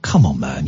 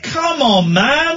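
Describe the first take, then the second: First: Low, gentle appeal; softened tone. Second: High-pitched shouted appeal; shouting out the window. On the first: Driver to a man whose lip quivers, softened tone. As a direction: talk him down kindly. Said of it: "then I softened my tone". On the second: Driver challenging a bottle smasher across the road, shouting. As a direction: yell it from a car window. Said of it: "I started shouting out of the window". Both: Retold or imitated.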